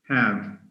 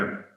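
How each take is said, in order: First: The h sound and full vowel are pronounced. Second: The h sound is dropped and the vowel weakened. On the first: "That's the strong form" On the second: "Weak because it has lost the ha sound"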